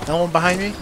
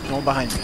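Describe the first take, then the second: First: Rising question; checking nervously, rising at end; asking. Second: Falling, quieter confirmation; relieved statement. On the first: Checking behind in game. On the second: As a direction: settle it, tone drops. Confirming no enemies behind. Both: Real, not acted.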